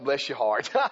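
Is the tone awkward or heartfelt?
awkward. It is said in a strained, awkwardly polite way. The speaker is holding back what they really think. "I can't say what I really want to say right now"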